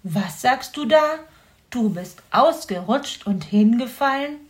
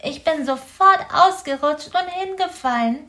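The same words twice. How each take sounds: First: Incredulous fox echoing the hedgehog; fox repeating in disbelief. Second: Raised, small hedgehog voice; a little hedgehog telling what happened; high-voiced hedgehog explaining his fall; young hedgehog explaining. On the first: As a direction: repeat it back, amazed. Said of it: "wiederholte Herr Fuchs". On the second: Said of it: "erklärte er". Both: A narrator's reading.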